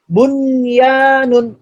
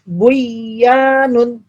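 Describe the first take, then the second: First: The n sound is pronounced clearly before y. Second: The n sound merges into the following y. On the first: The speaker calls it right. "Tapi dibaca bunyanun" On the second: The speaker calls it wrong. "Bukan dibaca buyanun"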